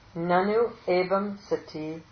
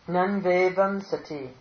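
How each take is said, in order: First: The words are split into separate forms. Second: The words are run together into one form.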